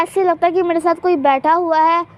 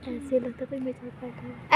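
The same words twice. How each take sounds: First: Said in the usual way. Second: Softer, hushed spooky aside. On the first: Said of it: "ऐसे लगता है कोई मेरे साथ बैठा है". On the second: Pretend. Vlogger on a swing tells fans, hushed and eerie. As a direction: drop to an eerie near-whisper.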